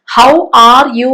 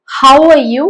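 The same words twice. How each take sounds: First: How are you drawn out, every word full; slow, each word separate; not the natural how are you; strong form, slow. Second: How are you said short, weak vowels; clipped weak how are you; how are you with reduced are; weak form how are you. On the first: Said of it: "how are you വേണ്ട". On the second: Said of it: "how are you മതി". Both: Shown as a demonstration.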